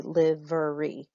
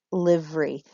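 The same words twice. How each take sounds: First: "livery" said as three syllables, LIV-er-y. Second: "Livery" said as two syllables, LIV-ry. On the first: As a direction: give "livery" all three beats. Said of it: "So it could be three syllables". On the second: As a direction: squeeze "Livery" into two beats. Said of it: "as I have it in two syllables". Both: Shown as a demonstration.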